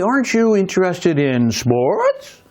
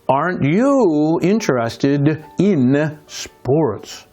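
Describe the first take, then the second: First: The pitch rises at the end like a question. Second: The pitch stays level without rising at the end. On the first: It is a real question. The speaker calls it wrong. "I'm not going to say" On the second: The speaker already knows the answer. The speaker calls it right. "You see how I left my intonation the same"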